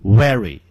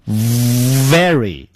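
First: "very" said as "wery" with rounded lips; wrong W pronunciation. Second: "very" opening on a long buzzing v; exaggerated, drawn-out v in "very"; correct V pronunciation. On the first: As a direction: swap the v of "very" for a w. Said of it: "而不要念成". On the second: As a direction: bite the lip and hold the v of "very". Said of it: "要念成". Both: Shown as a demonstration.

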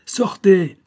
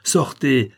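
First: Bien plus haut et plus fort, hurlé; cri furieux. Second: Un peu plus haut, ordre ferme; ordre sec. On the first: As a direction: hurler l'ordre à pleine voix. (le comte, hors de lui, hurle à sa femme de sortir) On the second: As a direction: ordonner de sortir, déjà en colère. (le comte chasse la comtesse, encore contenu) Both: Acted. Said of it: "s'écria le comte".

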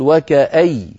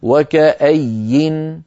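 First: وكأي stopped on a doubled ya, no nun; stopping with ya. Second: وكأي stopped with a clear final nun, drawn out very slowly; slow pausal وكأي ending in nun; stopping with nun. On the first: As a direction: end وكأي on a stressed doubled ya. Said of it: "في اللغة خارج المصحف تقول". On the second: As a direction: stop on وكأي and sound the nun. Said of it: "فإذا نقف عليها". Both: Shown as a demonstration.

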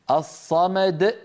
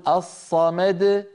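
First: الصمد drawn out with a glottal catch on د; wrong qalqala, slow. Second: الصمد ending in an open bouncing د; correct qalqala. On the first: Teacher demonstrating the faulty stop on الصمد. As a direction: stretch الصمد and choke off the د. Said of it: "أيضًا لا يصح". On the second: Teacher showing the proper qalqala on الصمد. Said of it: "لا بد أن نقول". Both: Shown as a demonstration.

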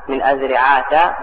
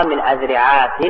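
First: أذرعات ending in open "-ta"; fatha ending. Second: أذرعات ending in nunated kasra, "-tin"; tanween ending. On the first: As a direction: slowly say أذرعات as "adhri'aata". (أذرعات بالفتح بلا تنوين) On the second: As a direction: pronounce أذرعات as "adhri'aatin". (أذرعات بتنوين الكسر) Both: Shown as a demonstration. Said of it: "هذه ثلاثة أوجه".

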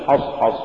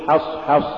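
First: حصحص with dark, backed vowels after ح; wrongly heavy ha. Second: Said in the usual way. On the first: Shown as a demonstration. Teacher warning against an error, heavy ح in حصحص. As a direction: thicken both ح in حصحص. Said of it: "إذا جاور مرقق مفخما". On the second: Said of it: "قل".

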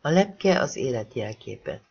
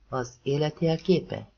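First: Said in the usual way. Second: Slow echo of "Az élet jelképe?", lingering on "jelképe"; questioning echo. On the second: Acted. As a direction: turn her words "Az élet jelképe?" back into a gently doubting question. Ethan repeats her words as question. (kételkedő visszakérdezés: „Az élet jelképe?”)

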